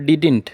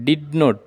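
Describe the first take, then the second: First: It is said as one short contracted word. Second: It is said as two full separate words. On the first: The speaker calls it right. "டிடின் அப்படின்னு தான் சொல்லணும்" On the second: The speaker calls it wrong. "டிட் நோட்னு சொல்லாமல்"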